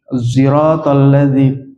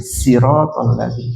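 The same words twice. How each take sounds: First: The first consonant falls between emphatic and plain. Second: The first consonant is a plain 's' sound. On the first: "Ada yang baca antara shad sama sin" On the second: "Shad ada yang baca sin"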